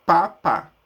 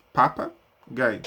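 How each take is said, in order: First: Papagaio said loud, split into pa-pa-ga-io; syllable by syllable. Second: Papagaio drawn out slowly, syllables joined back up; slowly blended. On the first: Teacher breaking a word apart for the child, loud syllables. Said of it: "daí eu peço pra que a criança junte". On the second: Teacher showing the child how to join the sounds, slow blend. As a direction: glide slowly through papagaio as one word. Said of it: "ela junte papagaio". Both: Shown as a demonstration.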